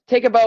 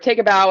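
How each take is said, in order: First: The word bow rhymes with go. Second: The word bow rhymes with cow. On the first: It refers to a ribbon tied in loops. "as in tie a bow" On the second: It refers to bending forward after performing. "as in bow because you've just performed"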